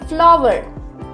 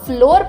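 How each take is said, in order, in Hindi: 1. इस शब्द का स्वर flower वाला है। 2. इस शब्द का स्वर floor वाला है। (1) "बल्कि फ्लावर" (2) "इस वर्ड को आप फ्लोर प्रोनाउंस नहीं करेंगे"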